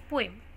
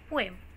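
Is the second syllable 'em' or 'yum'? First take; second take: em; em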